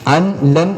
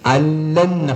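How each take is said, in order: First: The n sound is pronounced before the l. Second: The n sound disappears into a doubled l. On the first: The speaker calls it wrong. "എന്നല്ല" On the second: The speaker calls it right. "ആ നൂനിന് ലാമിലേക്ക് ഇദ്ഗാം ചെയ്യണം"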